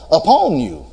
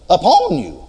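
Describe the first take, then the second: First: Said in the usual way. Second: Upon pitched high and punched; stress on upon. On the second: Shown as a demonstration. Preacher correcting a misquote for the congregation, stressing upon. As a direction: hit upon hard, correcting the verse. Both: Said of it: "No, no".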